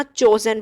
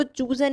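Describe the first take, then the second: First: "चोजन" with a long o in the first syllable; correct pronunciation. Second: "चूजन" with a long oo in the first syllable; wrong pronunciation. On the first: Teacher showing students the right reading, "चोजन" with an o. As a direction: say "चोजन", first vowel as in "chose". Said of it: "चोजन पढ़ना है". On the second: Teacher warning students off a misreading, mispronounced "चूजन" with an oo. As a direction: say "चूजन", first vowel as in "choose". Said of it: "इसको चूजन नहीं पढ़ना". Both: Shown as a demonstration.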